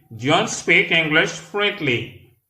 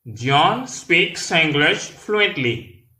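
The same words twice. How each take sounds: First: Slow but more connected, pitched higher; a little quicker. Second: Very slow, word by word, pitched higher; slow demonstration. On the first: Teacher repeats an English sentence for learners, a bit quicker. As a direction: model the sentence less drawn out, words linked. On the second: Teacher models an English sentence for learners, very slowly. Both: Shown as a demonstration. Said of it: "Là, nous parlons plus rapide".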